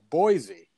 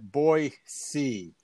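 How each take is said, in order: First: The middle consonant is a z sound. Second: The middle consonant is an s sound. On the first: The speaker is not from the state. The speaker calls it wrong. "Everyone in the world who's not from Idaho says" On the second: The speaker is from the state. The speaker calls it right. "People in Idaho call it Boise. It's a soft C sound, and it's not a Z sound"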